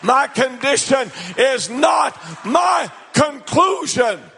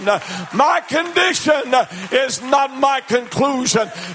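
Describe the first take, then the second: First: It is said forcefully, with defiant attitude. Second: It is said in a plain, even manner. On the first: "Say it with attitude" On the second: "I want you to say it with me"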